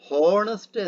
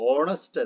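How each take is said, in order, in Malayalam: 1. ഈ വാക്ക് എച്ച് ശബ്ദത്തിലാണ് തുടങ്ങുന്നത്. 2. ഈ വാക്ക് സ്വരാക്ഷര ശബ്ദത്തിലാണ് തുടങ്ങുന്നത്. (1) "ഹോണസ്റ്റ് എന്നല്ല നമ്മൾ പറയുക" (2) "മറിച്ച് ഓണസ്റ്റ് എന്നാണ് പറയുക"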